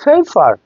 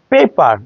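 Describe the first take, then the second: First: পেপার with each P puffed like ফ; aspirated P. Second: পেপার with both P sounds plain, no puff; unaspirated P. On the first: Teacher giving the correct form, aspirated পেপার. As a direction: say পেপার as "fefar", breath on each P. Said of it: "আসলে correct pronunciation". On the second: Teacher reading the usual form, unaspirated পেপার. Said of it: "আসলে correct pronunciation পেপার". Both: Shown as a demonstration.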